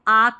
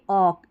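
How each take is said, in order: First: The vowel is 'ah' and the L is silent. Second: The vowel is 'aw' and the L is silent. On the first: The speaker calls it wrong. "इसको आक नहीं पढ़ना है" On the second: The speaker calls it right. "इसको ऑक करके पढ़ देना"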